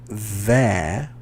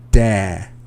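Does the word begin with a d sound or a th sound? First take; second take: th sound; d sound. First: The word begins with a soft th sound. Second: The word begins with a hard d sound. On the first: The speaker calls it right. "instead of saying their" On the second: The speaker calls it wrong. "I'm hearing dare"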